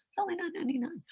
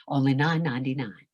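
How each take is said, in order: First: Higher, soft, sing-song commercial voice; fake announcer read. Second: Said in the usual way. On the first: Shown as a demonstration. Coach mocking a fake commercial read. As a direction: sell it like a fake TV ad. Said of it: "Who is that person? That's not a real person". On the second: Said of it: "That's not a real person".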